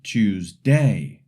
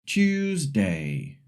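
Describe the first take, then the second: First: TuesDAY, last syllable punched; wrongly stressed Tuesday, loud on day. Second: TUESday, first syllable strong, said slowly; slow Tuesday with the weight up front; stress on first syllable. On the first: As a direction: hit the end of Tuesday instead of the start. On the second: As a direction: stress the Tues in Tuesday, falling after. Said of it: "or Tuesday". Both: Shown as a demonstration.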